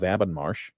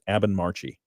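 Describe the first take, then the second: First: The name ends on a final 'sh' sound. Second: The name ends with an added 'ee' vowel. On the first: "Am I saying that correctly? You are" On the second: "kept trying to tell me it was Abbenmarchy"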